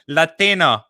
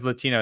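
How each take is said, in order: First: It is said with a Spanish-style pronunciation. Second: It is said with a plain American English pronunciation. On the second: "She's got a perfect New York accent until she says"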